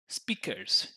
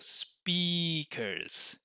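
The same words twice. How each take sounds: First: The first vowel is short. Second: The first vowel is long. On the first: The speaker calls it wrong. "when they're making it small" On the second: The speaker calls it right. "it's a long vowel sound"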